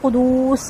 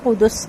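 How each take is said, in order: First: The second vowel is drawn out long. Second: The second vowel is short. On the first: The speaker calls it wrong. "इसको कुदूस नहीं पढ़ना" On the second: The speaker calls it right. "बिरूहिल कुदस"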